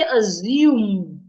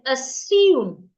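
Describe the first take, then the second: First: The middle consonant is a buzzing z sound. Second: The middle consonant is a hissing s sound. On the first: The speaker calls it wrong. "I didn't say assume. ... Don't change it to a Z" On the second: The speaker calls it right. "I said assume. ... The S remains the S"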